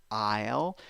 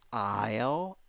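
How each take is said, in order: First: The vowel is the diphthong heard in 'eye'. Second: The vowel is the diphthong heard in 'eye'.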